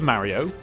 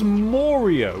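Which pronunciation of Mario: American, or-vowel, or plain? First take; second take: plain; or-vowel. First: A plain, non-American pronunciation of the name. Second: The first vowel is pronounced like 'or'.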